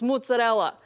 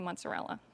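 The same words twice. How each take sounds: First: It is said in a New York Italian-American style. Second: It is said in a general American style. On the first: "from the New Yorkers that are like" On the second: "most people are gonna say mozzarella"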